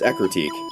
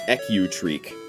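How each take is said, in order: First: The r sound follows the c, ending in 'teak'. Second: The r sound falls in the last syllable, 'treek'. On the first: The speaker calls it right. "It's Ecruteak" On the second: The speaker calls it wrong. "I mispronounced as Ecutreek"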